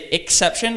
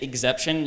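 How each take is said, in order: First: The x is said as ks. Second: The x is said as gz. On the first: The speaker calls it right. "you have to say" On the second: The speaker calls it wrong. "You can't say exception. You sound absurd"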